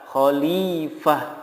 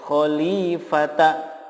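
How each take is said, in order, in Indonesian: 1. Kata ini berakhir dengan bunyi h. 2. Kata ini berakhir dengan vokal setelah huruf t. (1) "yang benar adalah khalifah" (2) "tidak boleh dibaca khalifata"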